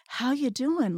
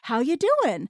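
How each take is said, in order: First: It sounds caring and worried. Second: It sounds happy and engaged.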